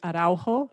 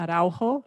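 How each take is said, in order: First: The name is said with a Spanish pronunciation. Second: The name is said with a Spanish pronunciation.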